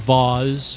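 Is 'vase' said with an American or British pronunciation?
British. The word has a British pronunciation.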